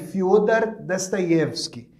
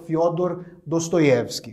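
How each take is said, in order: First: The unstressed o vowels sound like a. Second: The unstressed o vowels sound like o. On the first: This is how the name is said in Russian. "quando o O em russo não é a sílaba tônica, ele é átono, ele é pronunciado levemente como um A" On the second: This is how the name is usually said in Portuguese. "e não"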